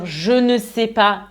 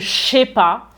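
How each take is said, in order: First: Every word is said fully, including ne. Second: The ne is dropped and je is squeezed in. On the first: "à la place de dire je ne sais pas" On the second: "voire même je sais pas"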